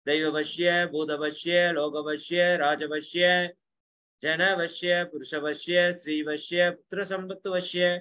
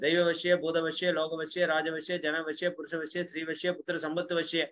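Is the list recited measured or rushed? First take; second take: measured; rushed. First: The eight are recited at a measured, flowing pace. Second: All eight are rushed out in one breath. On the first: The speaker calls it right. "இது அதனோட flow" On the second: The speaker calls it wrong. "இந்த எட்டை மொத்தமா சொல்லுவாங்க. மூச்சு மட்டும் சொல்லுவாங்க"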